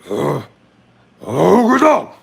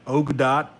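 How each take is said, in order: First: It is said in a put-on creature voice. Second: It is said in a normal human voice. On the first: "That's a very terrible impression" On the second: "If I say it in a normal human voice"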